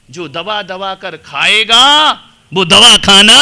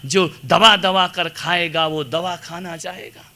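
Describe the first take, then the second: First: खाएगा stretched slowly, then दवा खाना shouted; emphatic repeat. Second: Said in the usual way. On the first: Shown as a demonstration. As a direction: drag out खाएगा, pause, punch दवा खाना loud. श्लेष समझाने को दोहराया. (खाएगा को खींचकर, दवा खाना ज़ोर से)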